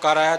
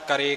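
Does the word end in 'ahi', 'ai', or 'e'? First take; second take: ai; e. First: The word ends with an 'ai' vowel. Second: The word ends with a plain 'e' vowel. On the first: "ਹਾਹੇ ਅੱਖਰ ਦਾ ਉਚਾਰਨ ਬੜਾ ਹੀ ਘੱਟ ਕਰਦੇ" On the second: "ਹਾਹੇ ਅੱਖਰ ਦਾ ਉਚਾਰਨ ਬੜਾ ਹੀ ਘੱਟ ਕਰਦੇ"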